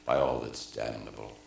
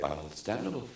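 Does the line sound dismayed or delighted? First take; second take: dismayed; delighted. First: It sounds dismayed, giving the discovery away. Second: It sounds delighted, like saying something wonderful.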